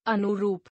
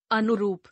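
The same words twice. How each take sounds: First: अनुरूप with misplaced vowel length in "anu-rup"; mispronounced. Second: Said in the usual way. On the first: Shown as a demonstration. Teacher showing a u error, mispronounced vowel length. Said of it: "अनशुद्ध". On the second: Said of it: "शुद्ध".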